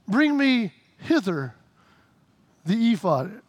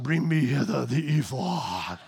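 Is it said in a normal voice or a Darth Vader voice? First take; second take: normal voice; Darth Vader. First: It is said in his normal voice. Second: It is said in a Darth Vader voice.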